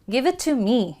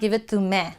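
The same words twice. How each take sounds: First: The final vowel is a clear long ee. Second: The final vowel is not a clear ee. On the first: The speaker calls it right. "So it has the E sound" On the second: The speaker calls it wrong. "It's not"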